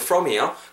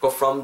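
First: The first sound uses upper teeth on lip. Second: The first sound is made with both lips. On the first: The speaker calls it right. "윗니를 아랫입술에 살짝 대고" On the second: The speaker calls it wrong. "다 하면 안 돼요"

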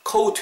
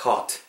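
First: The vowel glides like 'ow', sounding the U. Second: The vowel is a single long 'aw' sound. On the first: The speaker calls it wrong. "caught 이렇게 하실 것 같은데 U 발음 안 하셔야 돼요" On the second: The speaker calls it right. "자연스럽게 길게"

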